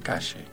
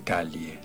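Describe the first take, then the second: First: The 'll' is a 'sh' sound. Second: The 'll' is a palatal 'ly' sound. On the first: The speaker calls it right. "Se dice calle" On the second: The speaker calls it wrong. "en Buenos Aires no se usa la Elie. Nadie dice calle"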